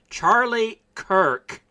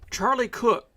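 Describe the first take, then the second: First: The surname is said with an 'er' vowel. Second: The surname is said with an 'oo' vowel. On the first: The speaker calls it right. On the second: The speaker calls it wrong.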